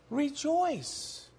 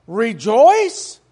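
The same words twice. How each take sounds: First: Soft, settled "Rejoice." falling; quiet affirmation. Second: Louder, disbelieving rising "Rejoice?"; incredulous question. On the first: Real, not acted. Preacher quietly affirming the apostle's command, soft and sure. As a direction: drop "Rejoice." to a calm, soft certainty. Restating what scripture said. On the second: Retold or imitated. Preacher voicing the world's disbelief at rejoicing, incredulous. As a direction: ask "Rejoice?" as if it were absurd.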